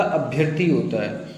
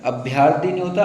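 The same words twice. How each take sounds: First: अभ्यर्थी with a short ya, abh-yar-thee; correct form. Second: अभ्यर्थी with a long yaa, abh-yaar-thee; wrong form. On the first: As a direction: keep the middle vowel of अभ्यर्थी short. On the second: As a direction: draw the middle vowel of अभ्यर्थी out to aa. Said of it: "अभ्यर्थी नहीं होता". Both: Shown as a demonstration.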